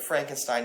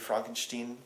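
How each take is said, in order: First: The name is said with English pronunciation. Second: The name is said with German pronunciation.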